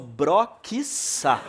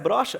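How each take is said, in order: First: The middle consonant is a hard 'ks' sound. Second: The middle consonant is a soft 'sh' sound. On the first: "Se pronuncia broquiça" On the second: "esse som de X no meio"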